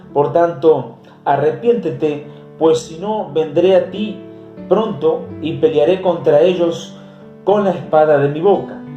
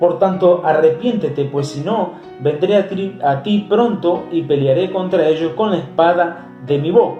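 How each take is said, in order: The two takes are said the same way.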